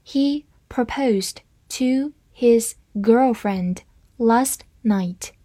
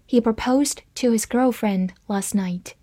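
First: Slow reading. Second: Said in the usual way. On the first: Shown as a demonstration. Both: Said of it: "好，慢慢来读。".

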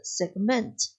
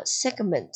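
First: Segment said as seg-MENT; second-syllable stress. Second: Said in the usual way. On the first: Shown as a demonstration. Teacher recapping the verb segment for students, stressed seg-MENT. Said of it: "它的重音在第二个音节上". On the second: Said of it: "以及它的动词segment".

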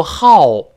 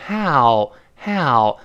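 First: "how" as loud Chinese "hao"; wrong HOW. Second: "how" gliding from open "a" into a short rounded ending; slow, open diphthong in "how"; correct HOW. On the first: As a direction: demonstrate the mistaken pinyin-style "how", punched loud. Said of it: "但不要读how". (how错读成汉语拼音hao) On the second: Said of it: "呃变成l，l". (how读成开口滑动的双元音) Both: Shown as a demonstration.

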